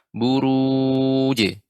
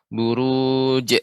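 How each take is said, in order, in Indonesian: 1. Huruf j di akhir dilepas dengan pantulan. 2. Huruf j di akhir terputus dan ditahan. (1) "Tapi dipantulkan" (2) "atau berhenti, tertahannya suara"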